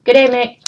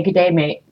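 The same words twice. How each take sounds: First: "Good day, mate" repeated higher, in a light Aussie lilt; Aussie imitation. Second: Quiet Aussie imitation. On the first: Vlogger imitating Australians greeting her, a light higher Aussie lilt. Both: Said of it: "I did hear people say, actually say".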